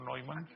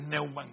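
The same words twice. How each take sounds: First: The name is read with German letter sounds. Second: The name is read with Spanish letter sounds. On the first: The speaker calls it wrong. "no Neumann" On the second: The speaker calls it right. "sino las españolizan. Entonces Andrés Neumann"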